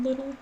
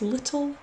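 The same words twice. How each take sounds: First: The middle T is soft, like a quick D. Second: The middle T is a clear, crisp T. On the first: The speaker calls it wrong. "I'm just mispronouncing it because I'm American" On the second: The speaker calls it right. "Little has T's"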